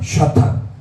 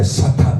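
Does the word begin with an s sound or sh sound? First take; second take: sh; s. First: The word begins with an sh sound. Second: The word begins with a plain s sound. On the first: The speaker calls it wrong. "샤탄 이게 틀립니다" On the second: The speaker calls it right. "사탄 할 때 사탄"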